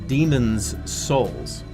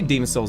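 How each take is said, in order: First: Demon is said with an s at the end. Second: Demon is said with no s at the end. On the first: The speaker calls it right. "It's Demon's Souls" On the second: The speaker calls it wrong. "I say Demon Souls"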